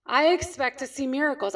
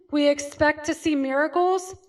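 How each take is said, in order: First: "I" stressed to own the promise. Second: Said in the usual way. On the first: Shown as a demonstration. Chiropractor to his audience, stress on "I". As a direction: lean on the word "I", then fall.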